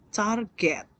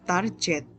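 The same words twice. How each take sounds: First: The g is hard, as in go. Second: The g is soft, as in energy. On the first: The speaker calls it right. "target pakai ge" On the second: The speaker calls it wrong. "karena disamakan dengan energi ya. Kurang tepat"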